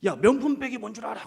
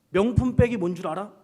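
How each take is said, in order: First: Higher, louder, 명품 hit hard; loud challenge. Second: Teasing quiz. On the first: Pastor quizzing the youth group, loud and pointed. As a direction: fire the quiz at them, punching 명품. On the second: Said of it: "제가 했던 얘기가 이거". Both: Retold or imitated.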